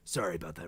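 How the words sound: It is said in a rough, gravelly voice.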